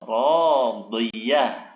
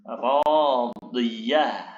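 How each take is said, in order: First: The word ends with a soft 'h' sound. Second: The same.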